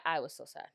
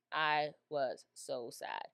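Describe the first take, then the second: First: Said in the usual way. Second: I was so sad drawn out slowly; slowed sad repeat. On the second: Shown as a demonstration. Telling viewers about the Queen's grief, slow and heavy.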